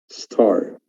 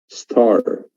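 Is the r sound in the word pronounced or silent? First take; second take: pronounced; pronounced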